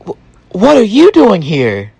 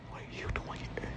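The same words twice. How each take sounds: First: High, startled question; surprised. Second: Fast breathless whisper. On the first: Wife startled to find her husband there, high surprise. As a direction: blurt it out high in shock. Wife shocked to see him. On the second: Wife repeats her shock in a hushed whisper. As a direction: hiss it under your breath. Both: Retold or imitated.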